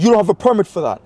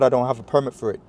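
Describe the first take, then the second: First: High, loud accusation; raised-voice retelling of a public telling-off; imitated yelling. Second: Said in the usual way. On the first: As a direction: mimic a man yelling an accusation. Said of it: "he starts yelling at me".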